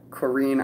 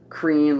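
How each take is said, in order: First: It is said as two syllables. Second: It is said as one syllable. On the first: "but like Corrine" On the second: "not like Crean, like C R E A N"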